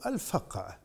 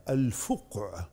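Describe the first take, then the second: First: الفقع with a short a after the ف; fatha on the fa. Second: الفقع with a short u after the ف; damma on the fa. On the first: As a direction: say الفقع as al-faqʿ, with "fa". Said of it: "بفتح الفاء". (الفقع بفتح الفاء) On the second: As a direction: say الفقع as al-fuqʿ, with "fu". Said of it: "أو الفقع بفتح الفاء". (الفقع بضم الفاء) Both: Shown as a demonstration.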